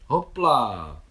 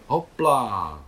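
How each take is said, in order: First: Loud joyful cry on the jump; cried out hopla. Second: Loud, bright call while leaping up; spring onto the horse with a shout; cheerful hopla. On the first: Mášenka jumping onto her small horse, joyful loud cry. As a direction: call it out as she leaps on. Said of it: "vykřikla Mášenka". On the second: Nicole mounting her horse in the sea, loud cheerful call. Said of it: "hbitě vyletěla Nicole". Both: A narrator's reading.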